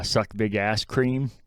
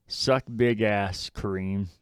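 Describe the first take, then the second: First: "Kareem" squashed into one syllable, "creem"; Kareem run into cream. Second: "Kareem" said as kuh-REEM, slowly; slow quote, keeping both syllables in "Kareem"; Kareem in two syllables. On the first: Explaining the misheard insult, "Kareem" said as one-syllable "creem". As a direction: say "Kareem" just like the word cream. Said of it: "to figure out she wasn't saying". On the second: Quoting Riz's insult for a co-host, "Kareem" in two clear syllables. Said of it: "I had to turn on closed captioning to figure out she wasn't saying". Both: Retold or imitated.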